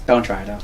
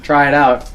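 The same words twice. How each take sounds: First: Quiet take back. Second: Said in the usual way. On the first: Shown as a demonstration. After saying try it out, quietly taking it back low and soft.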